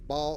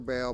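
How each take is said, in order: First: The vowel sounds like the one in 'ball'. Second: The vowel sounds like the one in 'bale'. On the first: "People pronounce it differently" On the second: "I think most people pronounce it bale, like B A L E"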